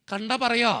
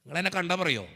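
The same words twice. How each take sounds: First: "പറയോ" lifted higher, pressing for an answer; insistent repeated question. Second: Said in the usual way. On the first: Real, not acted. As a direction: press the crowd with a higher, firmer "കണ്ടാ പറയോ". Asks again for an answer.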